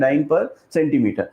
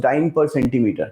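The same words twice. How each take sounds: First: Dyne per centimeter said slowly, word by word, with the weight on per; slow emphatic repeat. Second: Said in the usual way. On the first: Shown as a demonstration. Teacher repeats the unit slowly so students note it, stress on per. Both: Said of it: "क्या दे रखा है?".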